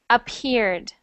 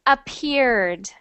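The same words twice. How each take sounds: No difference in how they are said.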